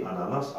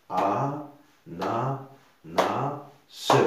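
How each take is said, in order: First: Said in the usual way. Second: "a, na, na, se" with a beat on each syllable; clapped-out syllables "a, na, na, se". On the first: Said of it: "regardez ananas". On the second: Shown as a demonstration. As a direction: break it into a... na... na... se, final "se" released on its own. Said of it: "on entend une syllabe".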